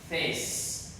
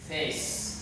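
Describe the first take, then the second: Both takes have the same delivery.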